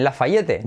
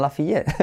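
First: LAFAYETTE as "la-fa-YE-te"; wrong Spanish reading. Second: LAFAYETTE as "la-fee-YET"; corrected pronunciation. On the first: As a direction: mispronounce LAFAYETTE as spelled. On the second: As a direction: correct it to LAFAYETTE with silent final e. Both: Shown as a demonstration. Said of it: "No, en Lafayette".

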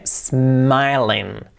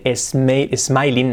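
First: "smiling" starting on a long hissed S; slow model, sss-MAI-ling; "smiling" beginning straight on S; no initial E. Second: "smiling" as es-MAI-lin; "smiling" with an added initial E; imitated mispronunciation. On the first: Shown as a demonstration. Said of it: "sin la E". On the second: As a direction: copy the Spanish E before "smiling".

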